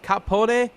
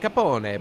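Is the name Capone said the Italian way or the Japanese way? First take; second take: Japanese; Italian. First: The name is said with Japanese-style sounds. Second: The name is said with Italian-style sounds. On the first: This is how the author pronounces it. "this is how it's pronounced" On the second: This is how it is said in Italian. "in Italian you pronounce it Capone"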